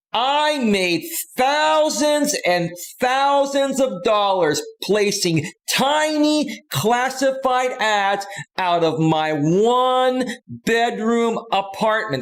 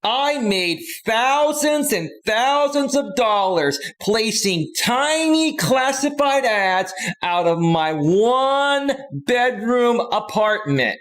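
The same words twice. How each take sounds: First: Very high, slow, overly emphasized pitchman; Don Lapre impression. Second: High, slow, over-emphasized pitchman voice; Don Lapre impression. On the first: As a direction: lean hard on every word like a late-night salesman. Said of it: "That's how he would talk". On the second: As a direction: stretch every word like a cocky infomercial host. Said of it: "and he would say".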